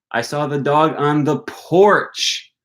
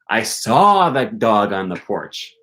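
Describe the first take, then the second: First: The stress falls on the word porch. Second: The stress falls on the word saw. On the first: The dog was on the porch, not elsewhere. "I didn't see the dog on the patio" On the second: The dog was seen, not sensed another way. "I didn't smell him"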